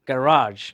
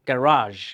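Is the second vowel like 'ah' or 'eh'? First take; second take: ah; ah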